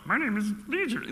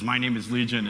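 First: It is said in a Yoda impression voice. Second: It is said in the speaker's own voice.

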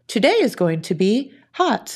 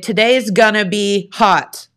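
First: Each word is said fully and separately. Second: The words are reduced and run together. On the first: The speaker calls it right. "instead of" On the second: The speaker calls it wrong. "I would say"

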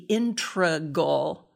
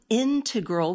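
First: The word has an altered, nonstandard pronunciation. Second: The word has its common standard pronunciation. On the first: The speaker calls it wrong. "so often mispronounced to be integral" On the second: The speaker calls it right. "this word integral"

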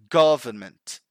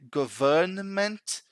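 First: The N before the M is barely pronounced. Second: The N before the M is pronounced strongly. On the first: The speaker calls it right. "It's simply government" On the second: The speaker calls it wrong. "Sometimes they even try to say government"

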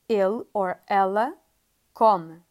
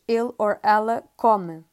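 First: It is said slowly and clearly. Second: It is said fast and run together.

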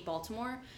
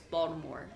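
First: The middle consonant is a crisp, stressed T. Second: The middle consonant is a soft, rounded D. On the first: The speaker calls it wrong. "you put the emphasis on the T" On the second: The speaker calls it right. "with a D, like a rounding D instead"

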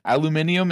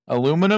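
First: It is said the British way. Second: It is said the American way. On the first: The speaker calls it wrong. "it doesn't exist. The Brits, you're wrong on this one" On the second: The speaker calls it right. "Aluminum is how you say it"

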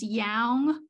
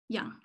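First: The vowel sounds like the vowel in 'hang'. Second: The vowel sounds like the vowel in 'hung'. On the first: It is the word read letter by letter, as it is spelled. The speaker calls it wrong. "the spelling pronunciation is yang" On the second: It is the real word as people say it. The speaker calls it right. "the word is actually young"

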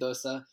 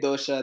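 First: The middle consonant is an s sound. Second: The middle consonant is an sh sound. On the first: This is how other communities say it. "they say dosa" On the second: This is how the speaker's own community says it. "we say dosha"

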